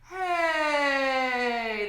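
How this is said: The vocal folds close with medium pressure. "When we have a medium pressure"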